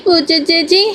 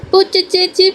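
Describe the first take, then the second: First: Put-on high little-girl voice, ending on a rise; playful high child's call with a rising end; teasing child call. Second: Put-on high little-girl call, falling; a toddler calling her big sister across the yard; high childish call for Pooja. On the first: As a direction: sing it up at the end to tease her sister. Little girl calls to sister.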